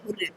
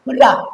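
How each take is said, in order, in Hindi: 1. शब्द 'ay' स्वर ध्वनि से खत्म होता है। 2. शब्द 'ah' स्वर ध्वनि से खत्म होता है। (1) "हम लोग कब कभी इसी हुर्रा को क्या बोल देते हैं बुआ, हुर्रे" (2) "जो नेटिव स्पीकर होते हैं वो उसको बोलते हैं हुर्रा"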